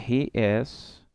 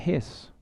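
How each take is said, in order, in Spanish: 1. Se dice como dos palabras separadas. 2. Se dice como una palabra contraída. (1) "un he is" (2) "lo puedo convertir fácilmente en his"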